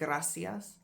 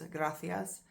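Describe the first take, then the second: First: The c is pronounced as in Latin America. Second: The c is pronounced as in Spain.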